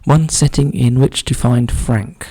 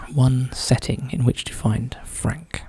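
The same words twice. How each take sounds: First: Said in the usual way. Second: Slow whispered repeat of the clue. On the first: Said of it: "repeats the clue in a whisper". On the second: Real, not acted. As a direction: whisper it slowly to yourself.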